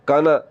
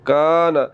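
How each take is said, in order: First: The first vowel is cut short. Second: The first vowel is drawn out long. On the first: The speaker calls it wrong. "अगर आपने ज़बर को लंबा ना किया और आपने पढ़ दिया काना" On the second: The speaker calls it right. "आपने ज़बर को लंबा करना और पढ़ना है काना"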